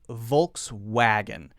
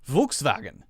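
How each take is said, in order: First: The middle W sounds like a W. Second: The middle W sounds like a V. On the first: "Americans just say it as it looks in English spelling" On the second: "the correct pronunciation of this one in German is something like Volkswagen"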